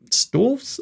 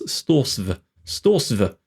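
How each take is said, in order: First: Storvs as one syllable, high and questioning; high-pitched query on Storvs, ending in "-vs"; doubtful pronunciation attempt. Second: Storsv with the "s" before the "v", falling; corrected pronunciation attempt. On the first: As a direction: try out Storvs with "vs" at the end, unsure. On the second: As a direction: say Storsv as "stors-vuh", settling on it. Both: Shown as a demonstration. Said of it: "I do apologise".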